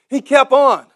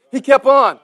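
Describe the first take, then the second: No difference in how they are said.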